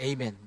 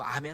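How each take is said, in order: First: The word begins with an 'ay' sound. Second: The word begins with an 'ah' sound. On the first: The speaker calls it wrong. "에이멘은 좀 안 했으면 좋겠어요" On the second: The speaker calls it right. "아멘이 더 맞는 에, 그런 그 발음입니다"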